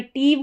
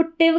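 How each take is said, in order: First: टीव with a long ee vowel. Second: टिव with a short, clipped i vowel. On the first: Teacher shows what not to say, long ee in टीव. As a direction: draw out the ee in टीव. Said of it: "टीव करके आपको pronounce नहीं करना है". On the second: Teacher shows how to read the ending, short vowel in टिव. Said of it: "short sound". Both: Shown as a demonstration.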